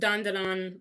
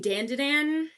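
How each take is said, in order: First: The name is said with Japanese-style vowels and rhythm. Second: The name is said with English-style vowels and rhythm. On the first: This is the correct original pronunciation. "I know it's Dandadan, but I feel like an asshole pronouncing it like that" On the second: This is the speaker's casual everyday way of saying it. "I'm gonna say Dandadan"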